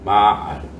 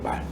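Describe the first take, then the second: First: The word is drawn out over two syllables. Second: The word is said as one short syllable. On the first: This is the original, older form of the word. "원래는 마알이에요" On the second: This is the present-day form of the word. "빠지면서 말이 된 거예요"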